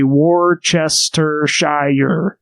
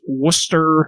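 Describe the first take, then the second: First: Worcestershire slowly spelled out as WAR-chess-ter-SHY-er; common mispronunciation. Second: Worcestershire split as WUSS-ter, sure; two-part pronunciation. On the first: Showing how people think it looks, slow WAR-chester-SHIRE. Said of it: "people always think it should be". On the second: Explaining how the name breaks up, two-part pronunciation. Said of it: "broken up into, like, two parts". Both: Shown as a demonstration.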